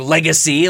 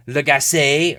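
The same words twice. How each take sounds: First: Legacy said LEG-uh-see, stress on the first syllable; alternative pronunciation. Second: Legacy said le-GAS-ay, stress on the second syllable; alternative pronunciation. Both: Shown as a demonstration. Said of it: "some people call it Legacy".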